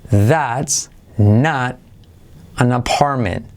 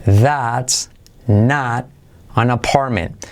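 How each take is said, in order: Both takes have the same delivery.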